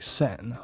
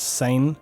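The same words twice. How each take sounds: First: The name is said with a French pronunciation. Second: The name is said with an English pronunciation. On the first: "but it's French, so it's like Seine" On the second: "I sometimes pronounce it as Seine"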